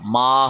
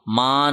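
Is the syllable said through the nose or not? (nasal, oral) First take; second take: oral; nasal. First: The syllable is sounded without nasal resonance. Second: The syllable is sounded through the nose. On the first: The speaker calls it right. "माँ होगा" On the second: The speaker calls it wrong. "माँ नहीं होगा"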